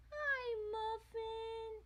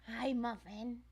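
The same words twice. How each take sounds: First: Very high, slow, soft cooing. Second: Said in the usual way. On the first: Real, not acted. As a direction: coo it up high like to a kitten. Cooing to the cat.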